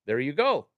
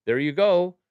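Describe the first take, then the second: First: Said in the usual way. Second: There you go, pushed up high and loud on go; louder, higher repeat. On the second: Real, not acted. Streamer cheering the chat, loud and high.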